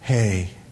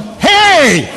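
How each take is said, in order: First: It is said in a calm, laid-back way. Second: It is said in an agitated, heated way.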